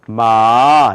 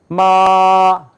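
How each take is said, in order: First: It is said with the second tone. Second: It is said with the first tone. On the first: It means hemp. "두 번째는 마 이렇게 발음해요" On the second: It means mother. "첫 번째 이제 이렇게 발음을 해요"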